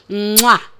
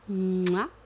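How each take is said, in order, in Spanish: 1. Es un sonido de beso grande y fuerte. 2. Es un sonido de beso muy pequeño y suave. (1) "3 besos grandes" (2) "3 besos muy pequeñitos"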